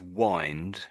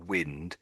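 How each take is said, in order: First: The vowel sounds like the one in 'winding'. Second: The vowel sounds different from the one in 'winding'. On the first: It means turning something round. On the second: It means the other sense, known from context.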